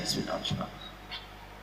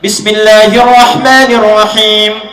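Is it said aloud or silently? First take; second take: silently; aloud. First: It is recited silently, barely audible. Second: It is recited aloud, clearly audible.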